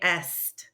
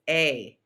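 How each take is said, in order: First: The word ends with audible s and t sounds. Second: The word is a single vowel sound. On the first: The speaker calls it wrong. "Try not to say est. That's very incorrect" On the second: The speaker calls it right. "That is an A sound. It's A"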